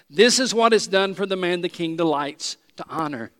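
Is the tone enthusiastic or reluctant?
enthusiastic. It is said with enthusiasm.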